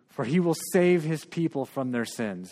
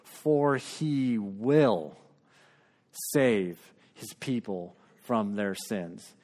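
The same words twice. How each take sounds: First: It is said at a quick pace. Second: It is said at a slow pace.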